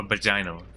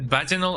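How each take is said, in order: First: "vaginal" as vuh-JY-nul; stress on second syllable. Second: "vaginal" as VAJ-in-ul; stress on first syllable. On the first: Streamer offering the other option, "vaginal" as vuh-JY-nul. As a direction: say "vaginal" with a long i, stressed middle. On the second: Streamer wondering how to say it, "vaginal" as VAJ-in-ul. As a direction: say "vaginal" with stress up front, short i. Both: Shown as a demonstration. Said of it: "Is it vaginal or vaginal?".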